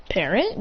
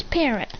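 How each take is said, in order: First: "Parent" with a rising question tune; "Parent" as a puzzled query. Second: "Parent" with a falling, final tune; "Parent" stated as a simple answer; flat confirmation. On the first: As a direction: lift the end of "Parent" in doubt. Queries the odd word. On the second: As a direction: drop the end of "Parent" as a statement. Confirms the word. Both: Acted.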